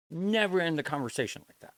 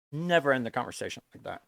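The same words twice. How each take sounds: First: NEVER punched a little higher; stress on never. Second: Said in the usual way. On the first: Real, not acted. Warning a chat viewer, with stress on never. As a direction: lean on the word "Never".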